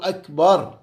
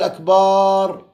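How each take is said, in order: First: The vowel in akbar is kept short. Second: The vowel in akbar is drawn out long. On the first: The speaker calls it right. "لازم الله أكبر" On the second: The speaker calls it wrong. "وما يقول أكبر"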